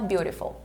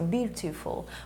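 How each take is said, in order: First: It is said with an American accent. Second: It is said with a British accent.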